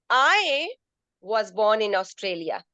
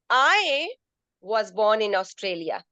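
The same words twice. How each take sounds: First: The stress falls on the word I. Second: The same.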